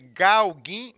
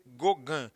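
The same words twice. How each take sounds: First: Every letter of the name is sounded out. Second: The name is said with French sounds. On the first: This is how the name is written. The speaker calls it wrong. "se escreve Gauguin" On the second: This is how the name is read. The speaker calls it right. "mas se lê Gauguin"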